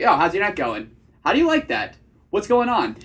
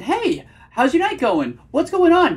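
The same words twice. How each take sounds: First: Confident, casual date opener with hard endings; attractive vocal tonality. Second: High, loud, over-eager mock greeting; nervous tonality. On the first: Coach shows how he talks on dates, casually confident. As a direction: drop each question firmly like a statement. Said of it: "that's a way more attractive vocal tonality". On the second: Coach demonstrates the unattractive way to greet a date, nervously high. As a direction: push the pitch way up, nervously eager. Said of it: "you can just hear the nervousness". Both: Shown as a demonstration.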